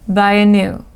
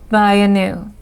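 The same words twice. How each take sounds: Both takes have the same delivery.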